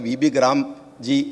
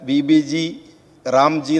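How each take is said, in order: First: G and Ram merge into one word, Gram. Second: G and Ram are said as separate parts. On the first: It is the proper way to name the scheme. The speaker calls it right. "B B ഗ്രാം ജി എന്നേ പറയേണ്ടതുള്ളൂ" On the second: It is pushed as part of a political agenda. The speaker calls it wrong. "B B ജി റാംജി എന്ന് പറയാൻ വേണ്ടിയിട്ട് ആസൂത്രിതമായിട്ട്"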